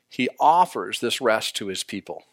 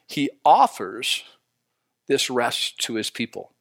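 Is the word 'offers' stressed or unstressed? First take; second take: unstressed; stressed. First: The word offers carries no special emphasis. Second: The word offers carries strong emphasis.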